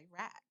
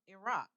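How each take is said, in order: First: The name has an Americanized pronunciation. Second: The name has a non-Americanized pronunciation. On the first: The speaker calls it wrong. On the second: The speaker calls it right.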